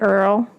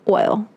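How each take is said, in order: First: The word is said with an 'er' vowel. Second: The word is said with a clear 'oy' vowel. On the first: "they pronounce it Earl" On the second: "Earl like oil"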